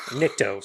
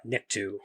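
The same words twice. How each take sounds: First: Nikto ending on a long "oh"; corrected pronunciation. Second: Nikto misread with an "oo" ending; slipped pronunciation. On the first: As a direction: say Nikto with an "oh" at the end. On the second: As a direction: end Nikto on "too". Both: Real, not acted.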